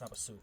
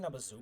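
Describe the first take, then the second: First: The middle consonant is an s sound. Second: The middle consonant is a z sound. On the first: The speaker calls it right. "it's with an S" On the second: The speaker calls it wrong. "I keep saying Nabazu"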